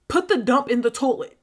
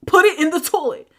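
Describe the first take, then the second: First: Said in the usual way. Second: Louder, higher insistent repeat; emphatic command. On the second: Retold or imitated. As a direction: drive the order home forcefully. Repeats the order more forcefully.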